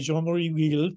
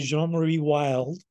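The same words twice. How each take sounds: First: The name has a French-style pronunciation. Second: The name has an American-style pronunciation. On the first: "you grew up speaking French, and in Rwanda, you say Jeanmarie Wild" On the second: "I say Jeanmarie Wild"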